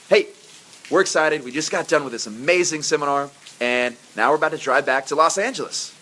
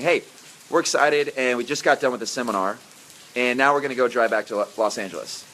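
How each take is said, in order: First: It is said with a lively, rising melody. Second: It is said in a flat, monotone voice.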